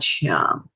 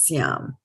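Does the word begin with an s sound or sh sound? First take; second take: sh; s. First: The word begins with a sh sound. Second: The word begins with a plain s sound. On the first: The speaker calls it wrong. "it's not Shyam" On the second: The speaker calls it right. "it is Syam"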